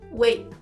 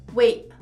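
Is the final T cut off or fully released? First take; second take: cut off; cut off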